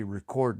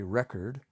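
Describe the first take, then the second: First: Record stressed on the second syllable, re-CORD; verb stress. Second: Record stressed on the first syllable, REC-ord; noun stress. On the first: Explaining record as an action, stress on CORD. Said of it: "that's like an action". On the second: Explaining record as a thing, stress on REC. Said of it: "it's a thing". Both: Shown as a demonstration.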